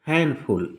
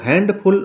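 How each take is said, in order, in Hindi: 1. d ध्वनि मौन है। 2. d ध्वनि बोली जाती है।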